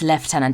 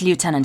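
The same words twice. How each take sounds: First: It is said with a British pronunciation. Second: It is said with an American pronunciation. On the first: The speaker calls it right. "it's lieutenant" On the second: The speaker calls it wrong. "every American listener over here, it's not lieutenant"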